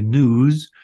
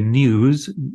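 First: It has no y sound before the vowel. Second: It has a y sound before the vowel. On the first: "most Americans will say news" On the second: "a Brit will say news"

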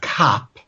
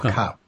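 First: The vowel is very open. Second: The vowel is closer to a schwa. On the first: This is how it was said decades ago. "a very open C-U-P" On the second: This is how it is said today. "much more schwa-like"

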